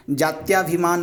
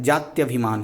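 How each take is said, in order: First: जात्याभिमान with a long aa after त्य, jaatyaa-bhimaan; wrong form said. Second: जात्यभिमान with a short a after त्य, jaatya-bhimaan; correct form said. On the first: Teacher to students, voicing the misspelt form: जात्याभिमान with long aa. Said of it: "जात्याभिमान नहीं होता है". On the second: Teacher to students, giving the correct form: जात्यभिमान with short a. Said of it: "जात्यभिमान होता है". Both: Shown as a demonstration.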